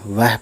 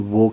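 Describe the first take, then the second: First: The word ends in an 'ah' sound. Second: The word ends in an 'o' sound. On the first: This is how it is read in Hindi. The speaker calls it wrong. "वैसा हम वह पढ़ते हैं हिंदी में" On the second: This is how it is said in Urdu. The speaker calls it right. "वो कहते हैं"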